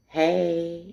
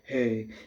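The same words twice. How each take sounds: First: It is said with a soft, feminine energy. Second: It is said with a deep, masculine energy.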